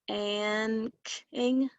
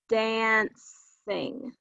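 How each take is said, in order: First: The c sounds like a k. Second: The c sounds like an s. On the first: The speaker calls it wrong. "That doesn't sound right to me" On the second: The speaker calls it right. "That sounds better"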